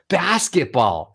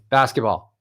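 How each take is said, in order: First: It moves in pitch with lively emotion. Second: It stays on one flat note throughout. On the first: The speaker feels something about it. The speaker calls it right. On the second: The speaker feels nothing special about it. The speaker calls it wrong.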